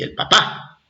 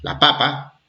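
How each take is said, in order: First: "papá" with the beat on the final PÁ; stress on last syllable. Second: "papa" with the beat on the first PA; stress on first syllable. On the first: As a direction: say "papá" landing on the second syllable. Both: Shown as a demonstration. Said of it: "nos diferencia apenas una tilde".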